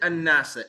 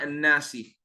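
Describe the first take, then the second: First: The word ends in an a vowel. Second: The word ends in an i vowel. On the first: The speaker calls it right. "Why is it an-nasa?" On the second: The speaker calls it wrong. "it's not an-nasi"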